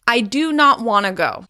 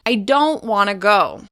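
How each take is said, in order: First: 'Do not' is said in full as two words. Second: 'Do not' is contracted to 'don't'. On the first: The speaker calls it wrong. "You shouldn't say, ... It doesn't sound natural" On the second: The speaker calls it right. "Here's how it should sound"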